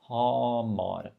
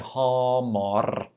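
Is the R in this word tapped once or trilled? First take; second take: tapped; trilled. First: The R is a single quick tap. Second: The R is rolled several times. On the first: The speaker calls it right. "Up, down, finished" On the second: The speaker calls it wrong. "Don't say Hamar or something like that"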